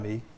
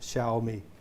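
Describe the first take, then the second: First: The first syllable does not sound like 'Shao'. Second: The first syllable sounds like 'Shao' in Shaolin. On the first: The speaker calls it wrong. "It's not" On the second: The speaker calls it right. "it's Shaolin"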